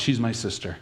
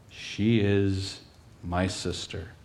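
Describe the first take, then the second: First: Said in the usual way. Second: Slow, low and soft; preacher slowly weighing Isaac's lie; somber slow. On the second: Acted. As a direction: let the lie sink in slowly.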